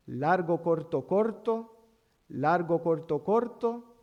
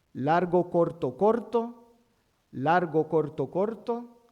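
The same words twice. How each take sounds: The two takes are said the same way.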